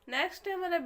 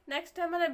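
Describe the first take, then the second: No difference in how they are said.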